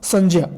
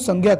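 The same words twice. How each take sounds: First: The middle cluster is not sounded as 'gy'. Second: The middle cluster is sounded as 'gy'. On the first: This follows the linguistic view of the conjunct. "इसका जो शुद्ध उच्चारण होगा" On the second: This follows the standard textbook reading. "ग और य से मिलकर के ज्ञ बना हुआ है"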